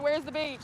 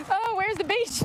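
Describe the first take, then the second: First: Said in the usual way. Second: Put-on whiny kid. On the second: Pretend dialogue in the car.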